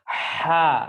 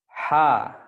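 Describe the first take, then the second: First: The throat sound is pressed and drifts toward kho. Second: The throat sound is light and only slightly narrowed. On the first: The speaker calls it wrong. "kalau antum tekan, ya, jadinya gimana? ... malah bisa naik jadi kho" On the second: The speaker calls it right. "dia hanya menyempit sedikit"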